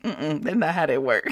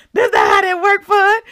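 First: Low, soft amused refusal; mock dismissal. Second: High, loud amused repeat; mock outburst. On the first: The Lord correcting her prayer, quiet dismissal. Acts out Lord's dismissive answer. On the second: The Lord correcting her prayer, high loud mock rebuke. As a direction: shout it high, fresh from laughing.

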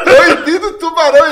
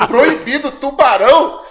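First: Louder and higher, "Proibido, tubarão" hit hard; the penny drops, call it out; shouting the sign's warning in alarm; alarmed realisation. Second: Rising, puzzled repeat of "Proibido, tubarão?"; echoing the sign back, baffled; disbelieving question. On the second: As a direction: ask it back in disbelief, pitch climbing on "tubarão". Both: Retold or imitated. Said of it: "Olha eu".

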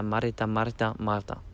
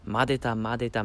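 First: "marta" with a trilled r after the drill; rolled r. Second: "madeta" repeated with a light tapped d; tongue drill. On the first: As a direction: roll the r in "marta". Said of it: "du irgendwann Marta rausbekommst". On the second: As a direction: say "madeta" twice, tongue tapping. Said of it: "wenn du sagst". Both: Shown as a demonstration.

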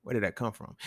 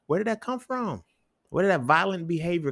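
First: Softer, near-whispered question; hushed question. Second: Much higher, incredulous question; high-pitched questioning. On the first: Man asking listeners where hitting comes from, hushed. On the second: Man asking listeners where violent habits come from, incredulous. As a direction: pitch it way up in disbelief. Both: Real, not acted.

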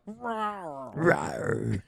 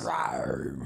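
First: Rising playful roar; Panther roar. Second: Low growling big cat roar; Panther roar. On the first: Pretend. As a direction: roar for the touchdown. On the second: Shown as a demonstration. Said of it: "That's my Panther sound".

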